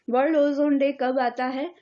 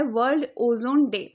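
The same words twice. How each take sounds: First: world ozone day कब आता है? asked with a rising tune; quiz question. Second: world ozone day stated with a falling tune; name the day as a settled heading; announcing the topic. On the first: Teacher quizzes students on the date, rising question. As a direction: ask the class as a quiz. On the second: Teacher announces the day to students, falling tune. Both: Shown as a demonstration.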